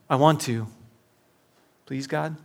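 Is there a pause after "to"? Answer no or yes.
yes. There is a pause after "to".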